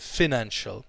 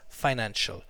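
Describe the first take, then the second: First: The first syllable sounds like fin in finished. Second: The first syllable rhymes with pie. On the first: "like finished" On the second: "Fi, like apple pie"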